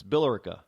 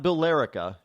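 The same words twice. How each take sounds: First: Billerica with the stress up front, BILL-ricka; local pronunciation. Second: Billerica said by the spelling, bill-LAIR-ika; wrong pronunciation. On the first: Host correcting for listeners, Billerica said the local way, BILL-ricka. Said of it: "It's not Billerica, it's Billerica". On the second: Host showing listeners how not to say it, Billerica mispronounced as bill-LAIR-ika. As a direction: say Billerica in four syllables, stressing LER. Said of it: "Pronunciation is everything. Uh, not spelling, pronunciation". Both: Shown as a demonstration.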